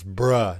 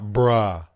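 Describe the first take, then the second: First: The vowel is short and central, like bruh. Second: The vowel is open and long, like bra. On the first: The speaker calls it right. "It's bruh" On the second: The speaker calls it wrong. "not bruh"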